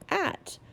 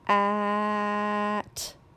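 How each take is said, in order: First: The sounds are blended together quickly. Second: The sounds are stretched out slowly. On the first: "Say it fast" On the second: "saying your word or sound slowly"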